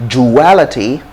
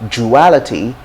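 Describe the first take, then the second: No difference in how they are said.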